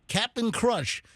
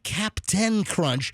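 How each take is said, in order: First: The first word is reduced to 'cap-n'. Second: The first word is said as full 'captain'. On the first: The speaker calls it right. "It's C A P apostrophe N. It's Cap'n" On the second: The speaker calls it wrong. "Not Captain Crunch"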